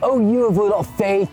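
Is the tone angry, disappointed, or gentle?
angry. The voice sounds harsh and scolding. The listeners are being condemned as failures. "you failures, what are you doing?"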